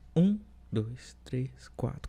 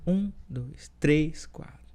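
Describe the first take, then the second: First: The stress is on um. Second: The stress is on três.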